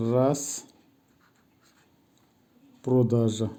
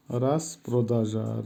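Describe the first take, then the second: First: Long pause between রাস and প্রদাজা; teacher modelling each word apart; word-by-word pronunciation. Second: Said in the usual way. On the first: Shown as a demonstration. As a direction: say রাস, stop, then প্রদাজা. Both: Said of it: "উচ্চারণ হবে".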